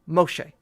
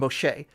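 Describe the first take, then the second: First: The stress is on the first syllable. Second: The stress is on the last syllable. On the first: "in Egyptian it was kind of the opposite" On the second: "in Hebrew the accent is on the ultimate or penultimate"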